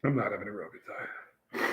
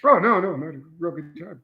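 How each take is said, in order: First: Low, soft, miserable confession; deflated admission. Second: Sarcastic reassurance. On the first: Pepper taster correcting himself to the host, deflated. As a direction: drop the act and admit defeat. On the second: Taster answering "don't look like you're enjoying it", sarcastic. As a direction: insist on enjoyment while plainly suffering. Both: Real, not acted.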